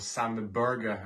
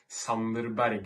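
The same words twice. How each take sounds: First: The name is said with an English pronunciation. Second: The name is said with a Norwegian pronunciation.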